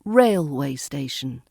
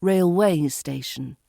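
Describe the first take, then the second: First: Railway station, front-stressed, falling away. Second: RailWAY station, second syllable stressed; railway station with a light rail and a strong way. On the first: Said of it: "not railway station". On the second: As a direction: put the weight on "way" in railway station. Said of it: "It's railway station". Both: Shown as a demonstration.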